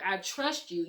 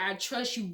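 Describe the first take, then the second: First: Said in the usual way. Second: "I trust you" lifting up at the end, unfinished; hesitant rising tune. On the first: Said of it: "You know how you have that". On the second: Shown as a demonstration. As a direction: let "trust you" rise as if a "but" follows. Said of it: "You know how you have that "I trust you," but?".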